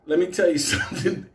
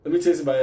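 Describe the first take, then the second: First: Laughing aside. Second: Said in the usual way. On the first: Shown as a demonstration.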